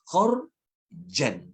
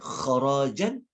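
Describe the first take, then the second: First: No vowel is heard between the r and j. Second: A vowel is heard between the r and j. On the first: The payment is made all at once. "dia ra tu dimatikan" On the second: The payment is made every year. "Kharajan iaitu yang dibayar setiap tahun"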